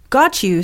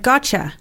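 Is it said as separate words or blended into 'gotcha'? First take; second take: separate; blended. First: The t and 'you' are kept separate. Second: The t and 'you' blend into 'cha'.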